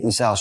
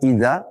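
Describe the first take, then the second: First: The middle consonant is an s sound. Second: The middle consonant is a dh sound. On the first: The speaker calls it wrong. "dia membaca semuanya dengan sin" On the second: The speaker calls it right. "mana zal"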